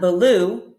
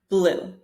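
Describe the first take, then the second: First: A small vowel splits the opening consonants. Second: The opening consonants are blended together. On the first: The speaker calls it wrong. "not blue" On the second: The speaker calls it right. "but blue"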